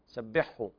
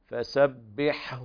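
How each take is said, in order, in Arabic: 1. يندمج الحرفان الأخيران في حرف واحد. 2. يُنطق الحرفان الأخيران منفصلين. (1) "فيضغم الحاء في الهاء وهذا خطأ" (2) "فالحاء تأخذ حقها من الهمس وكذلك بيان البحة الموجودة في الحاء، ثم تظهر الهاء أيضا"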